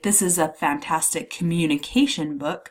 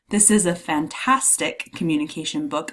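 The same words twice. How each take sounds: First: The stress falls on the word communication. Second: The stress falls on the word fantastic. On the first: The type of book is highlighted. "I'm emphasizing the type of book it is" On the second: The quality of the book is highlighted. "I'm emphasizing the adjective, the descriptor"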